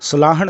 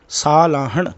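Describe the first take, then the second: First: The first syllable has a short vowel. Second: The first syllable has a long vowel. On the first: The speaker calls it wrong. "ਸਲਾਹਣ ਨਹੀਂ" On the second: The speaker calls it right. "ਸੱਸੇ ਨੂੰ ਵੀ ਕੰਨਾ ਹੈ"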